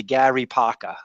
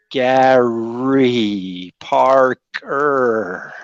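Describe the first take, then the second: First: Rhode Island "Paca" with the R's dropped; Rhode Island accent. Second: "Gary Parker" very slowly, every R hit hard; overcareful, drawn-out R's in "Gary Parker"; labored R's. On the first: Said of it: "get those R's in there". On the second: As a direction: stretch "Gary Parker" out, laboring over each R. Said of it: "had to practice really hard". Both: Shown as a demonstration.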